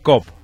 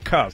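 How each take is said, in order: First: It is said plainly, without the crooked mouth. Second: It is said with a crooked, English-style mouth. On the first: The speaker calls it wrong. "No diga cop" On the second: The speaker calls it right. "con la boca chueca, diga Cup"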